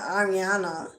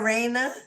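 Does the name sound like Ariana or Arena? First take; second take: Ariana; Arena. First: The name is said with an extra middle syllable. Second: The name is said without the extra middle syllable. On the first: The speaker calls it wrong. "I think I've been saying it wrong" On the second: The speaker calls it right. "it's Arena"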